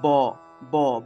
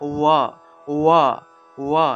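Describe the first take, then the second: First: The lips close to make a stop sound. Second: The lips stay apart, giving a gliding sound. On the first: It is the ordinary class consonant. "সাধারণত ব উচ্চারণ করলে কিন্তু ঠোঁট লাগিয়ে উচ্চারণ করতে হয়" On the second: It is the semivowel form. "ঠোঁট ব্যবহার না করে"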